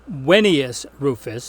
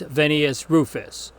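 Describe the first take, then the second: First: Vennius begins with a W sound. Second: Vennius begins with a V sound.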